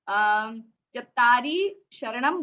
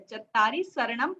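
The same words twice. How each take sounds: First: The second word begins with an 'sh' sound. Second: The second word begins with an 's' sound. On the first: The speaker calls it wrong. "जब आप चत्तारी शरणम बोल रहे थे वो गलत है" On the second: The speaker calls it right. "श नहीं बोलना है"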